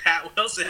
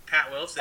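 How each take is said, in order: First: "Pat Wilson" louder, with a laugh breaking through; laughing name answer. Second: High, rising, breezy "Pat Wilson"; chirpy name answer. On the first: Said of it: "and I'm like". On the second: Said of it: "And he's like". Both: Retold or imitated.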